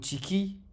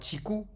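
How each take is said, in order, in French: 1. Le mot finit par une voyelle i après k. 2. Le mot finit par une voyelle u après k. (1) "ou tiki" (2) "ce ne sera pas tiku"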